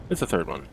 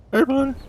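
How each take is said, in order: First: Said in the usual way. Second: Excited high-pitched squeak on seeing the ship; squeaky excited repeat. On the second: Real, not acted. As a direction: squeal it out like you just found her.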